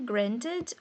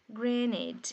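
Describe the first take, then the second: First: The T sound is clearly pronounced. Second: The T sound is dropped after the N. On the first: "Na pronúncia britânica você pode falar o T igual eu tô falando" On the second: "O N engole o T"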